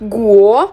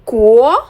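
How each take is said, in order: First: It begins with a voiced g sound. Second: It begins with a k-like sound. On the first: The speaker calls it wrong. "So not গুয়ো" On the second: The speaker calls it right. "জিয়ের উচ্চারণ হয় কয়ের মতো"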